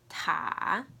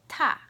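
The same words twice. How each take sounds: First: It is said with the third tone. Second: It is said with the fourth tone.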